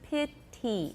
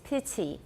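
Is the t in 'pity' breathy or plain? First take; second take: plain; breathy. First: The t is plain, without extra breath. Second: The t is breathy with a slight hiss. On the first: The speaker calls it wrong. "不是" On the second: The speaker calls it right. "会有一点 s 出来"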